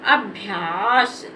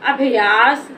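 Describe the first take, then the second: First: The भ is said quickly without a vowel. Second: The भ is drawn out with a full vowel. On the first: The speaker calls it right. "इसको जल्दी से पढ़ देना है और आ की साउंड का भी उच्चारण नहीं करना है" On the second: The speaker calls it wrong. "अगर इसको हम ऐसे पढ़ दें अभ्यास तो ये हमारा गलत हो जाएगा"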